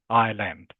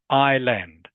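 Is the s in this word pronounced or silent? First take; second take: silent; silent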